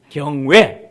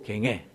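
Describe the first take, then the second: First: The second syllable has an 'oe' vowel. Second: The second syllable has an 'ae' vowel. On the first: The speaker calls it right. "경외 따라 해보라고" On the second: The speaker calls it wrong. "경애가 뭐고 경애"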